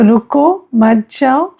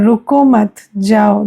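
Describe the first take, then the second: First: रुको lifted at the end, break, then मत जाओ; pause after रुको. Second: रुको मत as one unit, break, then जाओ; pause after मत. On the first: Teacher contrasting two meanings for students, pause after रुको. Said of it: "अब बोलने में तो कॉमा नहीं बोलेंगे". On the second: Teacher contrasting two meanings for students, pause after मत. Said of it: "दोनों में कितना अंतर हो जाता". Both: Shown as a demonstration.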